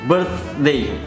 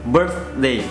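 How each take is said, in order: No difference in how they are said.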